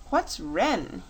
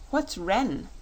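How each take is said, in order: First: Put-on repeating "What's Ren?" in the plain king voice, no childlike lift; king quoting the boy. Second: Put-on a boy puzzling over a strange word, lightly childlike; curious child. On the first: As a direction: savour the boy's words back to the court. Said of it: "he asks". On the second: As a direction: ask it as a puzzled little boy. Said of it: "asked Button-Bright".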